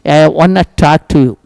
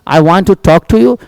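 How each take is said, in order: First: 'Want to' is blended into 'wanna'. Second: 'Want to' is said as two full words.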